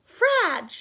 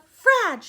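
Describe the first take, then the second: First: "Frag" said loud and clipped off; sounded-out syllable. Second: "frag" said high and loud; sounded-out syllable. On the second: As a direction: hit "frag" hard and high. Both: Shown as a demonstration.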